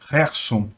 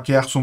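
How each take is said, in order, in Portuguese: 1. O nome começa com um som de H gutural e raspado. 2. O nome começa com um som de K forte. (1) "a pronúncia correta seria Kherson" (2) "eu me acostumei a falar Kherson"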